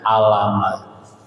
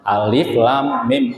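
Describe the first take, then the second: First: The letters are run together into one short word. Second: Each letter name is said separately in full. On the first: The speaker calls it wrong. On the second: The speaker calls it right.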